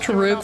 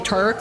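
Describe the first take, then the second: First: The name is said with two syllables. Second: The name is said with one syllable. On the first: The speaker calls it wrong. "having taught myself Taruk for the longest time" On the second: The speaker calls it right. "now trying to say Turk"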